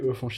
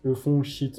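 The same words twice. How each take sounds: First: It is said at normal speed. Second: It is said more slowly.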